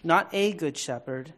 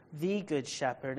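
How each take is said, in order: First: "a" said long and rising as "ay"; stress on a. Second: "the" weighted and falling to settle it; stress on the. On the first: Pastor contrasting a and the for listeners, stressing "a". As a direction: lean on "a" to set it apart. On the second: Pastor correcting to "the good shepherd", stressing "the". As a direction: land firmly on "the". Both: Shown as a demonstration.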